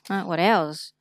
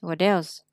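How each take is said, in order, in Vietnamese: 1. Âm t trong 'what' là t rõ. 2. Âm t trong 'what' nghe giống d nhẹ.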